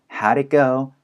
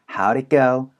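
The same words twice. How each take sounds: First: The words run together, with 'did' quickly reduced. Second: The same.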